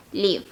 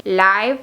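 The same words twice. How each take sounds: First: Live said with a short i, like liv; live rhyming with give. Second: Live said with a long I, like lyve; Live rhyming with five. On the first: (live pronunciado liv) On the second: (Live pronunciado laiv) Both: Shown as a demonstration. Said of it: "se pronuncian completamente diferente".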